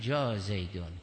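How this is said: It sounds pitying and sympathetic toward the arrival. The poor man has come; help him. "یعنی بیچاره آمده کمکش بکن"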